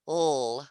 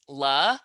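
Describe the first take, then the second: First: The consonant is said alone without a vowel. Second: The consonant is followed by a short vowel. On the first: The speaker calls it right. "but it's l" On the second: The speaker calls it wrong. "This one I would think was la"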